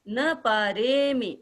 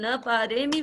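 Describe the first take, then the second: First: The 're' syllable is drawn out long. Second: The 're' syllable is said short. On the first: "रे को थोड़ा लंबा कर देते हैं तो एकदम शुद्ध उच्चारण हो जाता है।" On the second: "इसको अपन न पारेमी भी बोल सकते हैं।"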